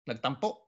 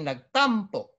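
First: The stress is on the last syllable. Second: The stress is on the second-to-last syllable. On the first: The speaker calls it right. "The accent is to the last, so how do you say this with a glottal stop?" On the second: The speaker calls it wrong. "You don't say nagtampo"

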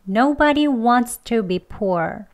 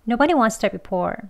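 First: Wants to is said slowly and fully. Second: Wants to is said much weaker and reduced. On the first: "천천히 두 번 해볼게요" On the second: "더 약하게 하면"

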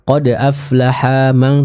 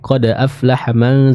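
First: The vowel after the ha is held long. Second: The vowel after the ha is kept short. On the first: The speaker calls it wrong. "tadi Ibu baca seperti itu" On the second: The speaker calls it right. "haknya pendek"

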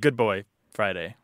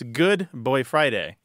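First: Boy is grouped together with good. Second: Boy is grouped together with Friday. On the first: It means a well-behaved boy, like a dog. The speaker calls it wrong. "instead of good boy Friday" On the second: It means a helper, from the term man Friday. The speaker calls it right. "It's about parsing, though. It's good boy Friday instead of"

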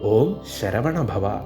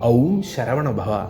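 First: The first syllable has a plain 'o' vowel. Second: The first syllable has a gliding 'au' vowel. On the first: The speaker calls it right. "അതാണ് സത്യം" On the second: The speaker calls it wrong. "ഔം എന്നാണോ ... ഒരിക്കലും ഉണ്ടാകില്ല"

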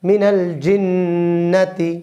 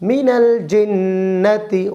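First: The vowel after 'jinn' is kept short. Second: The same.

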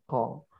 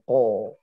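First: The vowel is only o-like with unrounded lips. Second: The vowel is a full o with rounded lips. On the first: The speaker calls it right. "Harakat fathah tidak boleh dimonyongkan" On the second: The speaker calls it wrong. "o sepenuhnya itu biasanya pengaruh bibir yang dimonyongkan. Ko. Salah"

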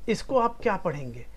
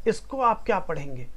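The two takes are said the same way.

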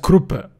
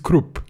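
First: The name ends with a pronounced final vowel. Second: The name ends on a consonant, no final vowel. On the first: The speaker calls it wrong. "we've been mispronouncing some names very badly" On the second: The speaker calls it right. "E is kind of swallowed in his name"

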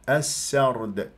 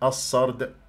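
First: The s sound is light and thin. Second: The s sound is heavy and emphatic. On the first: The speaker calls it right. "وهنا السرد" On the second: The speaker calls it wrong. "حتى لا تتحول إلى صاد"

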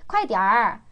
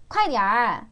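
The two takes are said the same way.

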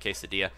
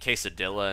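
First: The word is pronounced in the usual way. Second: The word is pronounced in an odd, jokey way. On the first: "instead of quesadilla" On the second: "if you say something weirdly to be funny, like saying quesadilla"

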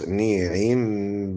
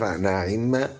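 First: The first vowel is 'i', then a full 'i'. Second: The first vowel is 'a', then a full 'i'. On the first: "والباقي كحفص" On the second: "فتحوا النون هرب بالتقاء الكسرتين، وكسروا العين"

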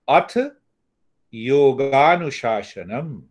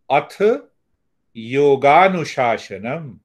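The two takes are said the same way.

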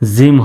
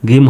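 First: The word starts with a J sound. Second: The word starts with a hard G sound. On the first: The speaker calls it right. "জিম হবে" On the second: The speaker calls it wrong. "গিম হবে না"

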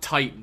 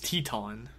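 First: The first vowel sounds like 'eye'. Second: The first vowel sounds like 'ee'. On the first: This is the usual way to say the name. "his name is not Titan" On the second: This is how the show's characters say the name. "They all pronounce it Teton"

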